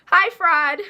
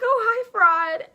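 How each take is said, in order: First: Loud, sassy "Hi, fraud"; a louder, cheeky hello; mock greeting. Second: High, slow, sugary "Oh, hi, fraud"; sing-song fake-sweet greeting; high drawn-out mock politeness; sarcastic hello.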